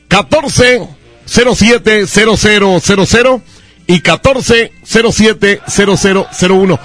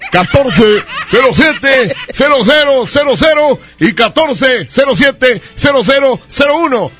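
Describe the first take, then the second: First: It is said in a normal voice. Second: It is said in a silly voice.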